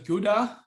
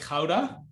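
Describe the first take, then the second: First: The name is said with an English pronunciation. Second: The name is said with a Dutch pronunciation. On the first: This is how foreigners usually say it. "you probably pronounce as Gouda" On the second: This is how locals say it. "I pronounce it like Gouda. that's the Dutch pronunciation of it"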